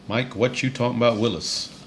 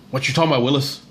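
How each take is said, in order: First: It is said in his ordinary broadcasting voice. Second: It is said in an imitated catchphrase voice. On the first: The speaker calls it wrong. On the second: The speaker calls it right.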